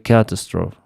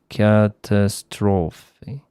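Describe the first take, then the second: First: It is said with a French-like pronunciation. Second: It is said with a native English pronunciation. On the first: "I say catastrophe" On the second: "Native English speaker, speakers say catastrophe"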